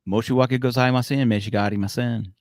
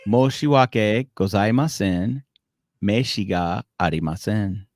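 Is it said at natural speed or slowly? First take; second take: natural speed; slowly. First: It is said at natural, quick speed. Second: It is said slowly and deliberately.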